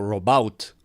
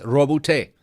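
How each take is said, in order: First: The name is pronounced without a French-sounding flavor. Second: The name is pronounced with a French-sounding flavor. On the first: The speaker calls it wrong. "Yo pensé que era algo así como" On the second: The speaker calls it right. "así como tirado al francés"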